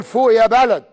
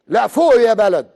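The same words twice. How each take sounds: First: فوق يا بلد said louder, stress on بلد; بلد punched with a fall; slogan cry. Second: فوق يا بلد slow and emphatic; فوق stretched and stressed; slogan cry. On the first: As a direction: chant the slogan. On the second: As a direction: call it out slowly. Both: Real, not acted. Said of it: "وهذا نقول".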